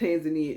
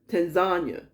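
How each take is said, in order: First: The ending does not sound like lasagna. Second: The ending sounds like lasagna. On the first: The speaker calls it wrong. "isn't said Tanzania" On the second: The speaker calls it right. "like lasagna"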